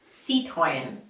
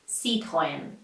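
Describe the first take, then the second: First: It is said with French sounds. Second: The same.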